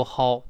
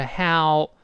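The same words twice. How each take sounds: First: How with the ah-to-o glide flattened into one vowel; mispronounced how. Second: How drawn out, gliding from "ah" to "o"; full diphthong how. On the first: Teacher warns learners off a mistake, how with its glide lost. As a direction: say how wrongly, without the full slide to "o". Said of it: "不要读how啊". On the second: Teacher models the correct word for learners, how with full ah-to-o glide. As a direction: open how on "ah", then slide into "o". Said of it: "由啊滑到这个o". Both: Shown as a demonstration.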